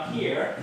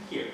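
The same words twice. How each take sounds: First: Pitched up high to show agitation; high level. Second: Brought down low and short; lower level. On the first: Officer shows trainees the starting agitation, high pitch. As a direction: say it up high, as a top marker. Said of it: "he's gone from, you know". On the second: Officer shows trainees the man settled, lowered voice. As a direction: drop it to show him settling. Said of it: "and now he's". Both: Shown as a demonstration.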